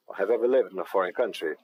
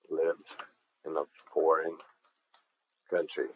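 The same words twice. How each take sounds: First: Said in the usual way. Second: Lived, in a foreign, country, with long gaps and softer; slow, word by word. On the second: Shown as a demonstration. Teacher breaking the phrase apart for students, slow and soft. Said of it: "Observem aqui no foreign".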